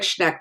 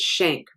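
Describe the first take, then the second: First: The name begins with a shn cluster. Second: The name begins with she, a vowel. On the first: The speaker calls it wrong. "It looks like Schneck" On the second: The speaker calls it right. "but it's Schenck"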